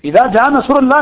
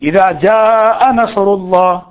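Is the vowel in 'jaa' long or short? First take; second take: short; long. First: The vowel in 'jaa' is cut short. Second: The vowel in 'jaa' is drawn out long. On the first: The speaker calls it wrong. "نہیں ہے" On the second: The speaker calls it right. "جا ہے نا، مد ہے"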